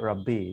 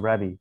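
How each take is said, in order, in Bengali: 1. মাঝের b ধ্বনিটি লম্বা করে বলা হয়। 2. মাঝের b ধ্বনিটি ছোট। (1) "they would never say রাব্বি" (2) "they would say রাবি"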